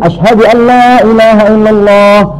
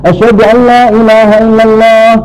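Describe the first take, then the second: The two takes are said the same way.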